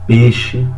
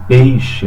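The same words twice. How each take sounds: First: The glide is dropped, sounding like 'pexe'. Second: The vowel glide 'ei' is clearly pronounced. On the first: The speaker calls it wrong. "seria o errado" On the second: The speaker calls it right. "eu tenho um ditongo aí"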